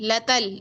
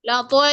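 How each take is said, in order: First: The second vowel sounds like 'a'. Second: The second vowel sounds like 'o'. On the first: The speaker calls it right. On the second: The speaker calls it wrong. "लतोल नहीं"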